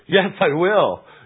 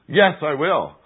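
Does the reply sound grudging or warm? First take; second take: warm; grudging. First: The reply sounds warm and willing. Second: The reply sounds dutiful and grudging. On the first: The answer comes from love. "like one who loves our Lord" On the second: The answer comes from a sense of obligation. "like one who's in debt"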